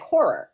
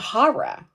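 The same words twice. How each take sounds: First: The word is said without an East Coast accent. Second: The word is said with an East Coast accent. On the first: "how do you say it? And I was like" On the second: "You're saying horror"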